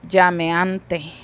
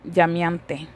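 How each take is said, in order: First: The vowel after 'llam' sounds like E. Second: The vowel after 'llam' sounds like I. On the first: The speaker calls it right. "literalmente se debería de pronunciar" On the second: The speaker calls it wrong. "La E la pronunciamos en I. Yo dijera aquí"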